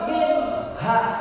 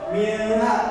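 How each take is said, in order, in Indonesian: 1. Bunyi n sebelum h jelas. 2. Bunyi n sebelum h kabur. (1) "tapi harus minha. Jelas" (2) "bukan minha"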